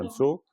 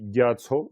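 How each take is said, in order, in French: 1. Un son nasal relie les deux syllabes entre elles. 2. Les deux syllabes se disent séparément, sans liaison. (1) "quand vous avez un ma, vous pouvez faire la liaison" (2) "C'était d'abord ga et tso"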